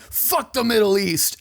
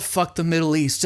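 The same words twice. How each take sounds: First: Mock yell. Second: Said in the usual way. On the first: Podcaster imitating a singer opening a song, mock yell. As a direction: imitate a singer yelling, held back. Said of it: "just a singer yelling". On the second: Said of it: naming the song's title.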